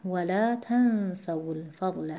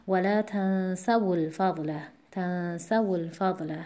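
First: ولا تنسوا الفضل slowly, stress on the تَ of تنسوا; slow, careful, stressing تَ; correct stress. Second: ولا تنسوا الفضل with the stress moved onto سَ, after the ساکن; deliberately misplace the stress in تنسوا; wrong stress. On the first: Teacher models the correct stress of ولا تنسوا الفضل. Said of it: "اینجا باید توجه داشته باشیم حرکت واو عارضیه". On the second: Teacher shows a learner's wrong stress on تنسوا. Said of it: "نه دیگه". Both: Shown as a demonstration.

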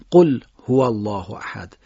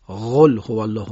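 First: قل with a hard, forceful ق; strong qaf. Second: غل said with a soft غ instead of ق; wrong soft qaf. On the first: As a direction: hit the ق in قل hard. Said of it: "قاف باید با شدت ادا بشه". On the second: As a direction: mispronounce غل softly on purpose. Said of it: "این صحیح نیست". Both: Shown as a demonstration.

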